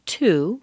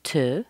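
First: "to" with a long oo vowel; full TO. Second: "to" weakened to a short tuh; reduced TO. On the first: Teacher shows how a word changes, full "to" first. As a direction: say "to" fully as TOO. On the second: Teacher shows how a word changes, "to" reduced to tuh. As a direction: shrink "to" down to a schwa. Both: Shown as a demonstration. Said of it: "to becomes to".

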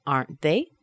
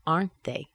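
First: "Aren't they" rising steeply at the end; rising intonation. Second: "Aren't they" falling at the end; falling intonation. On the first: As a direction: let "they" swing up as a question. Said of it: "let's let the intonation fall down". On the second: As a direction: stress "Aren't", drop on "they". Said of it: "let the intonation fall down". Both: Shown as a demonstration.

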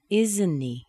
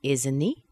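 First: "Isn't he" falling at the end; falling intonation. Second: "Isn't he" rising steeply at the end; rising intonation. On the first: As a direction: stress "Isn't", drop on "he". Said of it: "let the intonation fall down". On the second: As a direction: let "he" swing up as a question. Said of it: "let's let the intonation fall down". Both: Shown as a demonstration.

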